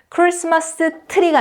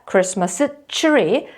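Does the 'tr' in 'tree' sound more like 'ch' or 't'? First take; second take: t; ch. First: The 'tr' is said with a plain t sound. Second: The 'tr' is said with a ch-like sound. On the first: The speaker calls it wrong. "티귿 발음이 되는 것이 아니라" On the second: The speaker calls it right. "치읓 발음을 하셔야 됩니다"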